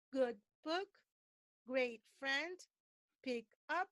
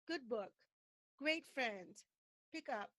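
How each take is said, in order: First: "good book" as two equally stressed words, gap between; separated even stress. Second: "good book" joined as one falling unit; connected word stress. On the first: Teacher showing what to avoid, disconnected even stress. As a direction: punch "great" and "friend" separately, rising. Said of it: "So don't say". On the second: Teacher correcting learners, linked word stress. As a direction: run "great friend" together, voice falling. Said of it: "but say". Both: Shown as a demonstration.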